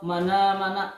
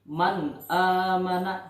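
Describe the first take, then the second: First: The n runs straight into the next vowel. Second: The n is said clearly and kept separate. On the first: The speaker calls it wrong. "Atau mana mana. Nah, itu salah" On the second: The speaker calls it right. "yang benar adalah jelas"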